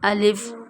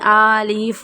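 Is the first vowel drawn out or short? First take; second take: short; drawn out. First: The first vowel is kept short. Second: The first vowel is drawn out long. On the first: The speaker calls it right. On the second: The speaker calls it wrong.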